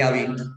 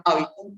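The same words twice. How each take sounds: First: Hábito said with the stress moved to the last syllable, habiTÓ; stress on the end. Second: Hábito stressed on the first syllable HÁ. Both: Shown as a demonstration. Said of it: "no es lo mismo hablar de hábito".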